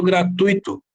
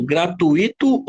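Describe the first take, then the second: First: "gratuito" with stress on the u; pronunciation option demo. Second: "Gratuito" with stress on the i, as a separate syllable; pronunciation option demo. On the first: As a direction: say "gratuito" as "gra-TÚI-to". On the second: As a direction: say "Gratuito" as "gra-tu-Í-to". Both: Shown as a demonstration. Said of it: "Como que eu falo?".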